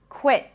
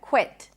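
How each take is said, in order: First: The final T is held, an abrupt stop. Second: The final T is popped with released air. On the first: "I pronounce it as a held T, so it's an abrupt stop of air" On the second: "you can pop the T"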